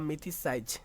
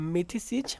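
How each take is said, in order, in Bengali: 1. শেষ অংশটি একটি লম্বা 'size' ধ্বনি। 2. শেষ অংশটি একটি ছোট 'siz' ধ্বনি। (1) "বা মিথিসাইজ" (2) "মিথিসিজ বললেই ভালো হয়"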